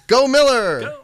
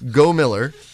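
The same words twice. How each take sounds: First: The name is said in a loud, triumphant way. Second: The name is said in a plain, flat way.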